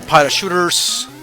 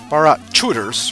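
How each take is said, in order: First: The middle consonant is an sh sound. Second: The middle consonant is a ch sound. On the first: The speaker calls it wrong. "not with an S H" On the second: The speaker calls it right. "rather, because it's it is with a C H"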